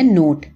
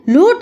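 First: Put-on نوٹ said clearly with N, correcting the child; gentle correction. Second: Put-on لوٹ said with an L, a child's slip for note; childish mispronunciation. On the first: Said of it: "نوٹ ہے". (درست تلفظ، نوٹ) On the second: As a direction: say لوٹ with L instead of N, curious. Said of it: "نوٹ ہے، نوٹ". (بچے کا غلط تلفظ، لوٹ)

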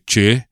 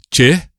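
First: "Che" on a low level tone. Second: "Che" on a high tone, louder. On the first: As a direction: keep "Che" low to mean crap. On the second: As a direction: put "Che" up high to mean me. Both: Shown as a demonstration. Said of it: "if you don't get the tones right".

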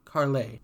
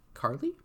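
First: "Carle" ending in an AY sound, falling; corrected pronunciation. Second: "Carly" ending in an EE sound, rising as a question; questioned mispronunciation. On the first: Lyra corrects the prisoner, saying "Carle" as KAR-lay. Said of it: "pronouncing it Carl A". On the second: Prisoner queries the name, saying "Carly" with a questioning EE ending. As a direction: say "Carly" as KAR-lee, unsure. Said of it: "Lyra corrects me". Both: A narrator's reading.

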